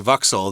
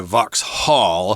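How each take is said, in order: First: A British accent, with the H sound skipped. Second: An American accent, with the H sound pronounced. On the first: This is how British speakers would say it. "the Brits would say Vauxhall. They'd kind of skip over the H sound there" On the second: This is how Americans would say it. "Americans would probably say Vauxhall"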